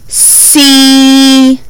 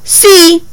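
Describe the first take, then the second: First: The sounds are stretched out slowly. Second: The word is said quickly as one unit. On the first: "they would say see" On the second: "Say it fast"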